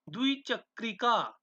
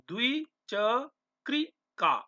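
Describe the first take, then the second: First: Said in the usual way. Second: द्विचक्रिका stretched out very slowly, every syllable clear; slow model pronunciation. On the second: Shown as a demonstration. Teacher showing students how to say द्विचक्रिका, very slow. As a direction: spell द्विचक्रिका out in sound, dvi-chak-ri-ka. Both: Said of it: "उच्चारण करते रहना".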